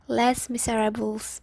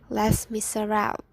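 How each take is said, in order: First: The title is read with English-style sounds. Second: The title is said with French-style sounds. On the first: The speaker calls it wrong. "I often read that as Les Miserables because I don't know the pronunciations" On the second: The speaker calls it right. "but it's actually Les Miserables"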